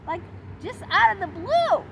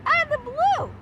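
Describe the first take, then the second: First: Higher, louder disbelief; indignant. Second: Much higher, louder "out of the blue"; peak indignation. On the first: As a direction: push "blue" up in outrage. Indignant over odd question. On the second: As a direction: top it with a near squeal of outrage. Repeat, more indignant. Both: Real, not acted.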